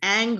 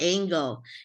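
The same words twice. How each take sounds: First: It is said with a standard pronunciation. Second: It is said with a Filipino pronunciation. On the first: The speaker calls it right. "it's angle" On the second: The speaker calls it wrong. "in the Philippines we say angle"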